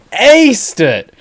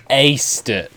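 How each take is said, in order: First: Slow, louder, higher; excited emphasis. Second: Said in the usual way. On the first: Real, not acted. Praising the voice actor to viewers, excited. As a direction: punch it out like a thrilled fan. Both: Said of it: "sorry, I get a little excited".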